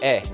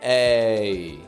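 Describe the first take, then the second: First: The vowel is short and flat. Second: The vowel is long and strongly projected. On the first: The speaker calls it wrong. "They'll just make it sound like eh" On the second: The speaker calls it right. "where the voice is projecting in a strong way"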